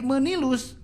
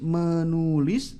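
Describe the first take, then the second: First: The vowel after 'men-' is i. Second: The vowel after 'men-' is u. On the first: The speaker calls it wrong. "menjadi menilus gitu ya" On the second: The speaker calls it right. "asalnya nulis, menulis ya"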